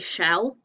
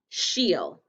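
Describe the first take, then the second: First: The vowel is short, rhyming with 'bell'. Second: The vowel is long, as in 'she'. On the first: The speaker calls it wrong. "Do you say shell, like a turtle's shell? No" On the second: The speaker calls it right. "the main word of she stays the same, and then we just add the sound of these letters"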